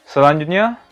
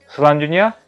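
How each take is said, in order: No difference in how they are said.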